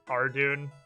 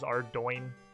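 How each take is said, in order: First: The last syllable ends with an 'oon' sound. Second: The last syllable ends with an 'oin' sound. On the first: This is the guessed pronunciation. The speaker calls it wrong. "If I had to actually guess, I would have guessed Ardoon" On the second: This is the actual pronunciation. The speaker calls it right. "until Hexy told me it was Ardoin"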